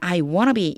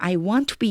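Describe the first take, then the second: First: 'Want to' is blended into 'wanna'. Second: 'Want' and 'to' are said in full. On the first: This is the usual American English way. "보통 미국식 영어에는 I wanna be 이렇게 되고요" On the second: This is a British English way. "영국식 영어로도 I want to be 이렇게 되기도 해요"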